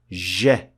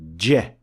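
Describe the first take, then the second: First: The consonant is a hissing sound that continues. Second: The consonant is a short burst that stops. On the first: The speaker calls it wrong. "you can keep saying zh for as long as you want... a fricative sound" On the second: The speaker calls it right. "for the first one, you cannot keep pronouncing it... a plosive sound"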